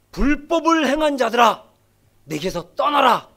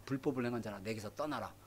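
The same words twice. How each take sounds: First: Stern Jesus. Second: Much softer, grave near-hush; "불법을 행한 자라" spoken soft and low, almost hushed; hushed Jesus. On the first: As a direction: banish them firmly, voice of judgment. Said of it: "근데 예수님이 뭐라 그럽니까?". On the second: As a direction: deliver the verdict low and quiet. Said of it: "그러니까". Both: Acted.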